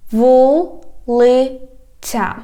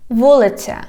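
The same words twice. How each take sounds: First: "Вулиця" very slow, broken into syllables. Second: Said in the usual way. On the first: Shown as a demonstration. Teacher has learners repeat, "Вулиця" slowly by syllables. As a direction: stretch each syllable of "Вулиця", pausing between. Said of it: "divide it into syllables". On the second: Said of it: "I read the whole word".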